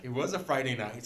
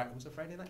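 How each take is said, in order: First: Louder, firm statement; emphatic confirmation. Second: Quick rising check; questioning. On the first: Preacher confirming the day to the congregation, emphatic. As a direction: land it as a confirmed fact, louder. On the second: Preacher checking his memory mid-story, questioning. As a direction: ask it as a question, NIGHT rising. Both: Real, not acted.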